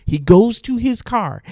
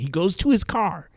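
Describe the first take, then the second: First: CAR high, loud and drawn out; slow it down and hit CAR hard and high; emphatic repeat. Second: Said in the usual way. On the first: Real, not acted. Storyteller stressing the cop left, CAR punched emphatically.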